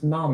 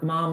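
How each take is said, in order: First: It is said with a British vowel. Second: It is said with an American vowel. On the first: "He's from England" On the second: "it's not mom over there"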